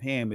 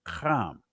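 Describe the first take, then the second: First: The name is said the usual English way. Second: The name is said the ancient Hebrew way.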